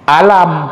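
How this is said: The word begins with a glottal catch. This is how Egyptian speakers say it. "Kalau orang Mesir, qaf itu bunyi hamzah"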